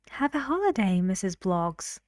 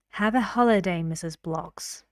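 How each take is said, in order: First: The voice sounds friendly and light. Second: The voice sounds firm and serious. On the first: It is offered as a suggestion. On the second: It is given as a command.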